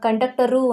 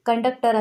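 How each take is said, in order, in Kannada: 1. ಪದದ ಕೊನೆಗೆ 'u' ಸ್ವರ ಸೇರಿಸಲಾಗಿದೆ. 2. ಪದ ಕೊನೆಯ ವ್ಯಂಜನದಲ್ಲೇ ಮುಗಿಯುತ್ತೆ. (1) "ಕಂಡಕ್ಟರು ಅಂತ ಹೇಳ್ತೀವಾ" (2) "ಇಲ್ಲ ಕಂಡಕ್ಟರ್ ಅಂತಲೇ ಹೇಳೋದು"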